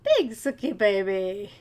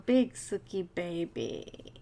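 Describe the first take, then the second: First: Slow cooing, a touch louder; slow fond pet croon. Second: Slow, low cooing at the cat; slow pet-talk coo. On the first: Cooing at the cat again. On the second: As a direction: coo it to a pet you adore. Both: Real, not acted.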